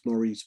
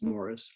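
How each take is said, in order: First: The name is said the speaker's usual way. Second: The name is said the British way.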